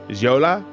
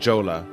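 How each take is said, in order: First: The J at the start is soft. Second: The J at the start is hard. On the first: "barely pronouncing the J" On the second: "a hard J like Jola"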